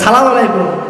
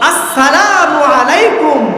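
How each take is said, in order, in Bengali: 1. শুরুর অক্ষরগুলো বাদ দিয়ে সংক্ষেপে বলা হয়। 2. প্রতিটি অক্ষর পূর্ণভাবে ও যত্নসহকারে উচ্চারণ করা হয়। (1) "এই সালাম না" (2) "শুদ্ধভাবে"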